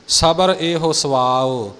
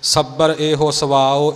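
First: ਸਬਰ with a light single b, slowly; ਸਬਰ soft and unstressed; ਸਹੀ ਪੋਲਾ ਸਬਰ. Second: ਸੱਬਰ said with a hard doubled b; the common mistake, ਸੱਬਰ doubled; ਗਲਤ ਉਚਾਰਨ ਸੱਬਰ; wrong doubled b. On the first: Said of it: "ਸਬਰ ਪੋਲਾ ਹੀ ਬੋਲਣਾ ਹੈ". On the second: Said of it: "ਪਾਠੀ ਇਉਂ ਬੋਲਦੇ ਨੇ". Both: Shown as a demonstration.

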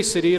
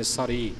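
First: ਸ੍ਰੀ as "si-ree", no "a" after the s; correct reading ਸ੍ਰੀ. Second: ਸਰੀ with an "a" between s and r, "sa-ree"; mistaken reading ਸਰੀ. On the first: Teacher telling reciters the raag's name, ਸ੍ਰੀ as "siri". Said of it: "ਸ੍ਰੀ ਰਾਗ ਹੀ ਉਚਾਰਨ ਕਰਨਾ ਹੈ". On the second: Teacher citing how some brothers read it, ਸਰੀ as "sa-ree". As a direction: say ਸਰੀ as "sa-ree", short a first. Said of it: "ਆਪਣੀ ਮੱਤ ਮੁਤਾਬਕ ਸਰੀ ਪੜ੍ਹ". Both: Shown as a demonstration.

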